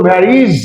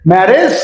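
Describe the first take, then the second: First: ম্যারিজ with long "i" in the last syllable, falling; new "-ij" ending. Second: ম্যারেজ with "e" in the last syllable, rising; old "-ej" ending. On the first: Teacher showing the corrected way, ম্যারিজ with "-reez". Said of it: "এখন বলবো". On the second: Teacher recalling the students' way, ম্যারেজ with "-rej". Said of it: "আগে বলেছেন". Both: Shown as a demonstration.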